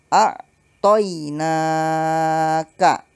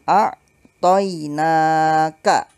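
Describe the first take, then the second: No difference in how they are said.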